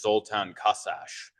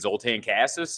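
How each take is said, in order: First: The name is said with Hungarian pronunciation. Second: The name is said with Americanized English pronunciation. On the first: This is how the name is said in its original language. "the proper pronunciation is" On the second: This is how the name was adapted in school. "my name got Ellis Islanded"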